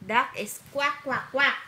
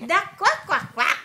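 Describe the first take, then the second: First: Said in the usual way. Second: High, loud playful quacks; excited quacking. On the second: Shown as a demonstration. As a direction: burst out quacking for the child. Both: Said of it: "corrects toddler's duck sound".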